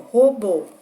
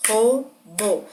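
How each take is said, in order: First: Said in the usual way. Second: ROBÔ broken into two beats, "Ro - bô"; dividido em sílabas. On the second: Shown as a demonstration. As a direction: say Robô syllable by syllable, pausing between them. (Robô separado em sílabas, ro... bô) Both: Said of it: "Vocês podem bater palma como uma forma de contar".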